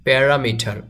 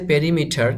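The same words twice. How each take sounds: First: প্যারামিটার as pe-RA-mi-tar; প্যারামিটার with ra, not ri; correct pronunciation. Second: পেরিমিটার as pe-ri-mi-tar; পেরিমিটার read as written; spelling pronunciation. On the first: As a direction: say প্যারামিটার with a in the second syllable. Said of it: "কিন্তু উচ্চারণ করতে হবে". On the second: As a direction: say পেরিমিটার with an i in the second syllable. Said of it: "লেখা আছে". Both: Shown as a demonstration.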